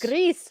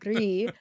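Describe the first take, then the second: First: The word ends with a clear s sound. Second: The word ends on the vowel, no s. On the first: The speaker calls it right. "Grease, Sean" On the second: The speaker calls it wrong. "not Gree"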